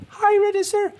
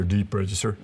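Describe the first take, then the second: First: Very high, louder squeaky demo; comic falsetto-high pitch; high register. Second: "deep register" said down low. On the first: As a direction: leap right to the top of your range. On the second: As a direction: voice dropped a little low. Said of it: "So a register". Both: Shown as a demonstration.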